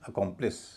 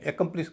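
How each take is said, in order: First: The first vowel is a weak, reduced sound. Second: The first vowel is a full 'e' sound. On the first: The speaker calls it right. "उसका उच्चारण ए न होके अ हो जाएगा" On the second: The speaker calls it wrong. "बिल्कुल नहीं होगा"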